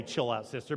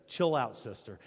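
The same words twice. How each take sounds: First: Said in the usual way. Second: Mock casual. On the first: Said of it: "He doesn't really say". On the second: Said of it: "Now, not really. He doesn't really say".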